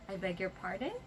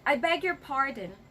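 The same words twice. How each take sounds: First: It sounds warm and smiling. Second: It sounds harsh and angry. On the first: The speaker politely wants it repeated. The speaker calls it right. "Say it with your smile" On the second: The speaker is annoyed by what was said. The speaker calls it wrong. "Do not say that with that scary face of yours"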